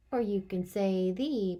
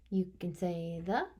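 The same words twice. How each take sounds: First: "the" said as thee, with a falling tune. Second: "the" said as thuh, with a rising tune. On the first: Teacher showing the class the thee way of saying "the". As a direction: say "the" long as thee. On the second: Teacher showing the class the thuh way of saying "the". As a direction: say "the" short as thuh. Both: Shown as a demonstration.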